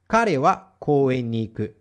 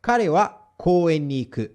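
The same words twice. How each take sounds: First: Slow careful repeat of Kare wa koen ni iku; slow model repeat. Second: Said in the usual way. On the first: Shown as a demonstration. Teacher repeats the example slowly for students to copy.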